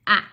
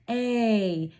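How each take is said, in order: First: The vowel is said as a short clipped sound. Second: The vowel is said as its long letter name. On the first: "we're going to make them short" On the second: "long vowel sounds are these names"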